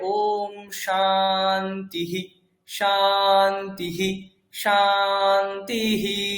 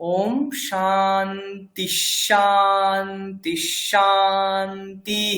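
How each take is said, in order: First: The words are separated; each one ends in 'hi'. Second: The words run together; only the last ends in 'hi'. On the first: The speaker calls it wrong. "ভেঙে ভেঙে যেমনটা রয়েছে, যেমন ইহি শোনা যায়" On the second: The speaker calls it right. "ওইটাকে যদি আপনি একসঙ্গে বলেন, মানে যদি ছেড়ে ছেড়ে না বলেন"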